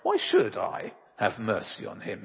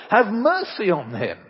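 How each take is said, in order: First: A hint of a dismissive emperor; the emperor throws her plea back at her; lightly voiced Napoleon. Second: Loud pleading mother; mother pleading with Napoleon, raised and pleading; imploring mother. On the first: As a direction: Napoleon lightly questioning the mother's plea for mercy. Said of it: "Napoleon replied". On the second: Acted. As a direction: beg the emperor to spare her son. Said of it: "she implored".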